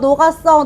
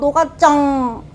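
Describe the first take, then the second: First: It is said in a plain, ordinary way. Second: It is said in a cute, babyish way.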